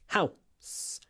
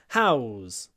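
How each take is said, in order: First: It ends in s after a short vowel. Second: It ends in z after a long vowel. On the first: It is the noun, a building. "Before a s, an unvoiced sound, we say a, w" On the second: It is the verb, to give someone housing. "before the z, we say a, w, w, w"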